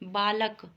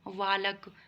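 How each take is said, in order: First: The word begins with a b sound. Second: The word begins with a v sound. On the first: The speaker calls it right. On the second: The speaker calls it wrong.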